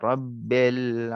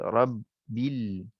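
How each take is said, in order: First: The vowel after the b sounds like e. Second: The vowel after the b sounds like i. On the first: The speaker calls it wrong. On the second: The speaker calls it right.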